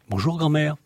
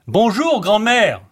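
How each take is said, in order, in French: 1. Le salut est dit à voix normale. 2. Le salut est dit fort.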